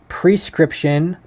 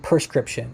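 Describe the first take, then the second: First: The first syllable sounds like 'pre'. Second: The first syllable sounds like 'per'. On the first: This is the spelled form of the word. "it's spelled P R E" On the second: This is how people usually say the word. "but we say"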